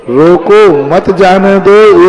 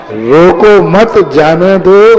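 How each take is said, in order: First: "रोको", pause, then "मत जाने दो"; pause after रोको. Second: "रोको मत", pause, then "जाने दो"; group मत with रोको, drawn out slowly, then जाने दो; pause after मत. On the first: Monk showing devotees the line to reject, pause after रोको. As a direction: stretch रोको, then run मत straight into जाने दो. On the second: Monk urging devotees to let him leave, pause after मत. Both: Shown as a demonstration. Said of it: "ये पंक्ति को गलत करो".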